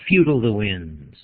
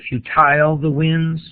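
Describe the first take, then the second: First: The stress is on the first syllable of futile. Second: The stress is on the second syllable of futile. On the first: The speaker calls it right. "that's a trochee followed by an iamb" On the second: The speaker calls it wrong. "Could you say futile the winds? You could, but I don't think that's what she intended"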